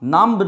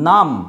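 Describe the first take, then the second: First: A b sound is pronounced at the end. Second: No b sound is pronounced at the end. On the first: The speaker calls it wrong. "নাম্ব নয়" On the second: The speaker calls it right. "এই বি এর উচ্চারণ হয় না"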